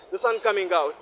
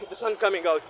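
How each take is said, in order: Both takes have the same delivery.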